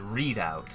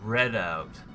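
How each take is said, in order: First: The first syllable sounds like 'read'. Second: The first syllable sounds like 'red'. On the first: This is the speaker's own habitual pronunciation. "but I pronounce it Readout" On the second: This is the intended pronunciation. "It's supposed to be pronounced"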